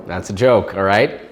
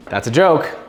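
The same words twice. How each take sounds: First: Lower, loud and firm on joke; firm reassurance. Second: Loud, rising alarmed correction; loud quick correction. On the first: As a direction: press joke down, then all right rising. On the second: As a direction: blurt it out, catching yourself. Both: Acted.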